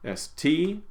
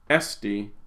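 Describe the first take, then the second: First: The stress falls on the final syllable. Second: The stress falls on the second-to-last syllable. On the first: It is. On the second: It exists or it is possible.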